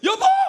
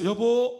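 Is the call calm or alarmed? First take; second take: alarmed; calm. First: It is an alarmed, urgent shout about a bug. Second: It is a calm, ordinary call from the room.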